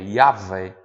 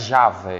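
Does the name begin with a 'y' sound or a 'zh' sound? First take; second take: y; zh. First: The name begins with a 'y' sound. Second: The name begins with a 'zh' sound. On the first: The speaker calls it right. "é Yahvé" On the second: The speaker calls it wrong. "Não é Javé"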